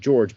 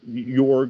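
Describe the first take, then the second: First: The name is said to sound like 'George'. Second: The name is said without the 'George' sound. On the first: "some people pronounce it George" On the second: "some people pronounce it Jorg"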